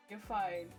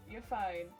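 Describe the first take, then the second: No difference in how they are said.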